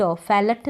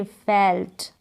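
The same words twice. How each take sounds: First: फेलट with a full vowel between ल and ट; wrong pronunciation. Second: फेल्ट as one syllable, half ल; फेल्ट with no vowel after the ल; correct pronunciation. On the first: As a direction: say फेलट in two syllables, fe-lat. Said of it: "फेलट नहीं पढ़ेंगे". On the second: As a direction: run ल straight into ट in फेल्ट. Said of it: "आधा ल निकलेगा, तभी correct". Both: Shown as a demonstration.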